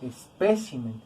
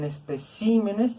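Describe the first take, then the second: First: "Espécimen" low and falling, weight on PÉ; stress on PÉ. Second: "especímenes" with CÍ drawn out; teacher showing the shifted stress, es-pe-CÍ-me-nes; stress moved to CÍ. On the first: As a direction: lean on the second syllable of "Espécimen". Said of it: "Es una palabra esdrújula". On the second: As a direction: lean hard on the third syllable of "especímenes". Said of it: "también lo vamos a recorrer". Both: Shown as a demonstration.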